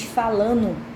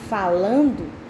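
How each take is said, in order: First: The d of the ending is dropped. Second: The ending is said in full, with the d. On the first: The speaker calls it wrong. "Você está cortando as palavras" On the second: The speaker calls it right. "Em vez de dizer falando"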